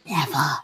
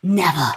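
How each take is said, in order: First: Softer, lower never; whispered. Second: Said in the usual way. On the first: Real, not acted. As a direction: breathe it as an echo. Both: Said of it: "repeated then whispered".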